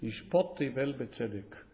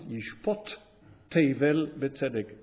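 First: The words run together without a break. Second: A short break separates Yishpot from Tevel. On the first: The speaker calls it wrong. "a common mistake" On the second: The speaker calls it right. "the way we should pronounce it, A little break"

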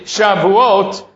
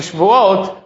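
First: There is a full vowel between sh and v. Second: There is no vowel between sh and v. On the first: The festival of weeks. The speaker calls it right. "but it's really Shavuot" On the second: The festival of swearing oaths. The speaker calls it wrong. "So many people mispronounce the holiday as being Shvuot"

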